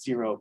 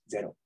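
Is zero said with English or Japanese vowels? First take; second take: English; Japanese. First: The vowels sound like English vowels. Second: The vowels sound like Japanese vowels. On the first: "which is just zero" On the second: "you pronounce the vowels in the Japanese way"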